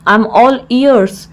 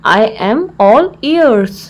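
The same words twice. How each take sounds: First: Said in the usual way. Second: Slow, word-by-word teaching delivery; slow repeat. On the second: Shown as a demonstration. Teacher repeats the English phrase for learners, slowly.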